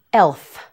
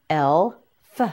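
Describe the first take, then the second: First: Said in the usual way. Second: "Elf" split into el, pause, fuh; sound by sound. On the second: Shown as a demonstration. Teacher modelling "Elf" for learners, sound by sound. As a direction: say the final f of "Elf" on its own after a gap.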